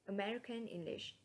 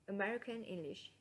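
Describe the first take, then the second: Both takes have the same delivery.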